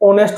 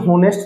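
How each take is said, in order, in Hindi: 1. शब्द बिना h ध्वनि के शुरू होता है। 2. शब्द h ध्वनि से शुरू होता है। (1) "ऑनेस्ट होता है" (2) "ये होनेस्ट नहीं होता"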